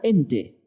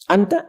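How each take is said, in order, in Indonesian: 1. Vokalnya diucapkan sebagai 'e'. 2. Vokalnya diucapkan sebagai 'a' yang jelas.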